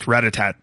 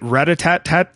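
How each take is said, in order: First: The word is said without the extra syllable. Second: The word is said with an extra syllable. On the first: The speaker calls it right. "just ratatat" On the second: The speaker calls it wrong. "Did I throw an extra syllable?"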